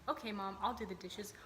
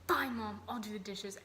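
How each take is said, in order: First: It is said in a cheerful, willing tone. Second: It is said in a resentful, annoyed tone.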